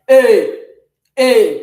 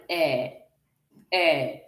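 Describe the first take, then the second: First: "eh" as a loud, sharp, closed é; sharp acute e. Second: "eh" as an open, softened è; soft grave e. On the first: Teacher contrasts acute with grave, sharp loud é. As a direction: punch "eh" out loud as a tight French é. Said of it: "While acute is making E to sound like". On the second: Teacher shows how grave accent softens E, soft open è. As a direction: let "eh" fall open and soft, French è. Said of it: "Grave accent softens E". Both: Shown as a demonstration.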